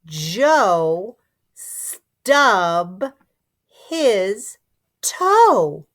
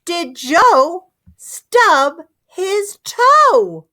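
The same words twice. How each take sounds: First: Joe stub his toe? read word by word with a rising end; choppy word-by-word read. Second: Did Joe stub his toe? slow and higher, question tune; smooth question read. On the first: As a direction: tap each word out. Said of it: "let's see if we can read it smoother". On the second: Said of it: "it sounds like a question". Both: Shown as a demonstration.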